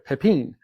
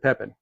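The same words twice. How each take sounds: First: The stress is on the last syllable. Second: The stress is on the first syllable. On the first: The speaker calls it right. "you got to put the emphasis there" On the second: The speaker calls it wrong. "I'd always said Pepin"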